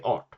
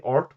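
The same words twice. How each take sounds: First: Art with retroflex rt, falling; Swedish art. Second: Art with English r, rising. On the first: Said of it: "we say art". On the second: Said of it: "you say art". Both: Shown as a demonstration.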